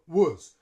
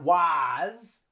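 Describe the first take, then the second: First: The word has a weak schwa vowel. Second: The word has a full, clear vowel. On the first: The speaker calls it right. "We use schwa for was" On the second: The speaker calls it wrong. "Not was"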